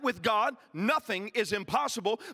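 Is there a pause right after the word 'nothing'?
no. It runs straight on after 'nothing' without a pause. God can do anything. "I know how we read that"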